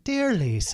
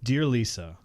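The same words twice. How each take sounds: First: It is said in a put-on Irish accent. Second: It is said in the speaker's ordinary accent.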